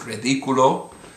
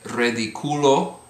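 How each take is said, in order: First: The stress is on the third-last syllable. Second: The stress is on the second-last syllable. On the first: The speaker calls it right. "but because of the accent" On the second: The speaker calls it wrong. "similarly, for it would be"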